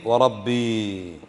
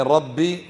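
First: Very slow وربي, final ee stretched out; lower, hold the ya at the end of وربي; long ya ending. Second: ربي with a short final vowel; short ending. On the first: Teacher quizzes students on the difference, long-vowel pronunciation. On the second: Teacher quizzes students on the difference, short-vowel pronunciation. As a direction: say ربي briefly, without stretching the ya. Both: Shown as a demonstration. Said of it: "ما الفرق بين".

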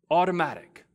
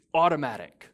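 First: "Automatic" hit louder and higher as a falling punch; "Automatic" repeated with weight; emphatic repeat. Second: Said in the usual way. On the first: Shown as a demonstration. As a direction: drive home "Automatic" with a firm falling stress.

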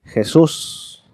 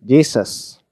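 First: Jesús as "heh-SOOS", stressed at the end; Spanish pronunciation. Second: Jesus as English "JEE-zus"; English pronunciation. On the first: Teacher comparing names across languages, Spanish pronunciation. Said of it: "En español". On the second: Teacher comparing names across languages, English pronunciation. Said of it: "en inglés". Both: Shown as a demonstration.

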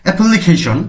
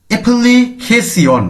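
First: অ্যাপ্লিকেশন said joined up, ending in one syllable "shon"; Korean-style অ্যাপ্লিকেশন as "e-pul-li-khe-shon"; "শন" উচ্চারণ. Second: অ্যাপ্লিকেশন said very slowly and higher, syllable by syllable, ending in "si-on"; ধীরে ভেঙে উচ্চারণ. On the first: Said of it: "কিংবা শন উচ্চারণ করা যায়". (অ্যাপ্লিকেশন একটানে, শেষে "শন" উচ্চারণ) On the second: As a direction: spell out অ্যাপ্লিকেশন by sound as "e-pul-li-khe-si-on". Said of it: "শিয়ন থাকলেও, সিয়ন থাকলেও". (অ্যাপ্লিকেশন ধীরে, উঁচু সুরে ভেঙে, শেষে "সি-অন") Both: Shown as a demonstration.

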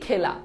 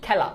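First: খেলা with a plain closed e, as written; spelling pronunciation. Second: খেলা with an open "æ", khæ-la; spoken pronunciation. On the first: Teacher shows students how it is written, খেলা read as spelt. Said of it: "বানানে লিখি খেলা". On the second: Teacher answers how it is really pronounced, খেলা said khæ-la. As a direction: open the first vowel of খেলা as in "cat". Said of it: "কিন্তু উচ্চারণ হয় কি". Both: Shown as a demonstration.

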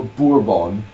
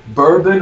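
First: "bourbon" as boor-BON; French-style "bourbon" with a full nasal ending; second option. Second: "bourbon" as BUR-bun; first option. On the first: Asking Mum to pick, "bourbon" as boor-BON. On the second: Asking Mum to pick, "bourbon" as BUR-bun. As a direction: say "bourbon" with a short, unstressed ending. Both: Shown as a demonstration. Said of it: "do you say bourbon or bourbon".

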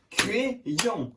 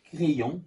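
First: "Crayon" split into two beats; syllable by syllable. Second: Said in the usual way. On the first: Shown as a demonstration. Teacher confirms the pupil's clapping, syllable by syllable. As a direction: separate Cra and yon clearly in "Crayon". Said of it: "tape dans les mains". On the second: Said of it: "deux syllabes".

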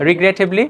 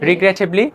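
Both takes have the same delivery.

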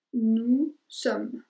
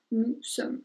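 First: "Nous sommes" said nu som, with the final S silent; careful pronunciation demo. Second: Said in the usual way. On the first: Shown as a demonstration. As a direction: model "Nous sommes" without the S sound. ("Nous sommes" pronunciado nu som, sin la S final) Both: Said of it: "no vas a pronunciar la S al final".

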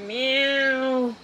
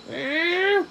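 First: Soft, lower cat meow. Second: Soft meow with a laugh in it. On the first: Player meowing to lure the kitty, soft meow. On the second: Player meowing at the kitty, laughing meow. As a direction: meow while cracking up. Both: Pretend.

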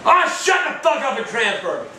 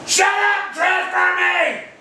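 First: Curt, annoyed order; fed-up snapped demand; angry demand. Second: High, slow yelled order; final enraged bellow; furious shout. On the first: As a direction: tell him off sharply. Demands transfer. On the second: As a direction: bellow every word apart. Repeats demand louder. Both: Real, not acted.

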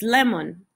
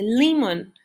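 First: Said in the usual way. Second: "lemon" read the way its spelling suggests, as "leemon"; spelling-rule pronunciation. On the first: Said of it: "pero es lemon". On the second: Shown as a demonstration. Teacher shows the pronunciation the spelling predicts: "lemon" as "leemon". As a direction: say "lemon" as "limon", with a long ee sound. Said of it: "debería de pronunciarse".

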